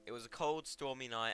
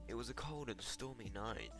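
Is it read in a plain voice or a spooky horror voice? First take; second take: plain; spooky. First: It is read in a plain everyday voice. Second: It is read in a spooky horror voice.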